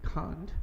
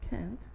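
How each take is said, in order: First: It is said in a British accent. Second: It is said in an American accent. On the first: "in British they say" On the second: "in American they say"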